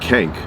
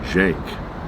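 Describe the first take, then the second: First: The name starts with a hard K sound. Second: The name starts with a J sound. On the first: The speaker calls it wrong. "Spelled with a C though. Like Kank" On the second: The speaker calls it right. "with like a J sound"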